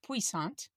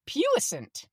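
First: The word is pronounced the French way. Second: The word is pronounced in an anglicized way. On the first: The speaker calls it wrong. "I have always pronounced puissant because that is the French way" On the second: The speaker calls it right. "I looked it up and listened to the pronunciation and it's puissant"

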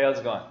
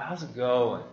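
First: It sounds quick and offhand, like a passing greeting. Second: It sounds slower and earnest, like a real question. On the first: A routine greeting without real interest. The speaker calls it wrong. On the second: Genuine concern about the person's condition. The speaker calls it right. "It's all about the voice inflection"

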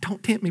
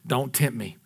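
First: It sounds weak and pleading, as if tempted. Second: It sounds stern and threatening, like a warning. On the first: The speaker is tempted and begs not to be tempted. The speaker calls it wrong. "He was not saying like, ooh, that sounds good" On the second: The speaker warns the other not to provoke him. The speaker calls it right. "Jesus was reminding that devil, look, I threw you down once"

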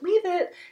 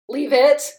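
First: It is said in a light, happy voice. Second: It is said in a stern, scolding voice. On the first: The cue is given in an encouraging way. "even if you train it with a happy voice, it starts off like" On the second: The cue is given as a scolding. "it has this really like, no, don't do that"

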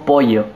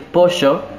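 First: It is said in a Misiones accent. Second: It is said in a Buenos Aires accent.

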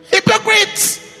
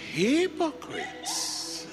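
First: It is said in a harsh, unfriendly tone. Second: It is said in a gentle, friendly tone.

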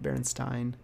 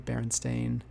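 First: The last syllable is said like 'stein'. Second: The last syllable is said like 'stain'. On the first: The speaker calls it wrong. "not Berenstain" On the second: The speaker calls it right. "it was actually spelled with an A. That's why you say Berenstain"

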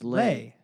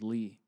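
First: The vowel sounds like 'ay'. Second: The vowel sounds like 'ee'. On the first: This is how the spelling seemed it should be read. "I thought her name is Lay" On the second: This is how the person's name is actually said. "whose name is Lee"

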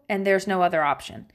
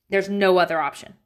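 First: It is said in a calm, plain tone. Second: It is said in an irritated mom voice.

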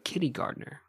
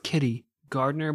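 First: It is stressed so it sounds like kindergartner. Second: It is stressed normally, like a person's name.

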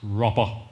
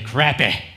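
First: The first vowel sounds like 'crop'. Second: The first vowel sounds like 'crap'.

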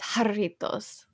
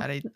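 First: It begins with an H sound. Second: It begins with an English J sound. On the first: The speaker calls it right. "I forgot that J's are H's" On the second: The speaker calls it wrong. "It's actually not"

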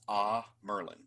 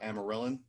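First: The word has no extra syllable in the middle. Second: The word has an extra syllable in the middle. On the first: The speaker calls it right. "I think the proper pronunciation is Ah Merlin" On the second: The speaker calls it wrong. "I always add an extra syllable and used to call it Amerilin"

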